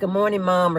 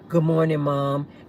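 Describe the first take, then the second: First: It is said in a normal voice. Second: It is said in a deep voice.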